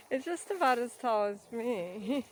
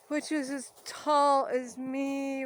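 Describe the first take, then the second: First: Said in the usual way. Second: Tall drawn out slowly, higher; stress on tall. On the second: Pretend. Slow, high, stressing tall.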